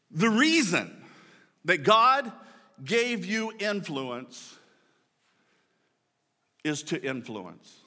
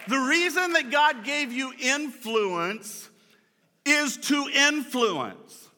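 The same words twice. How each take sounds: First: Each phrase set apart by long pauses; profound statement. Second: Higher and slow, drawn out; repeated for emphasis. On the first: To the congregation before a profound line, weighty and paused. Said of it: "This is gonna be profound". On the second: Pastor restating his profound line, higher and slower. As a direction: say it again raised and slowly, driving it home. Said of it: "That's, that's profound, man". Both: Shown as a demonstration.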